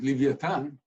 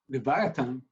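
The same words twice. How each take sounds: First: The word has a Hebrew pronunciation. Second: The word has an English pronunciation.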